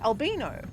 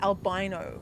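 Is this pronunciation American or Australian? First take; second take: Australian; American. First: The word is said the Australian way. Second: The word is said the American way. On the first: "Australians say albino" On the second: "Americans say albino"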